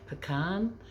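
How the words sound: It is said the American way. "How do you say it in America?"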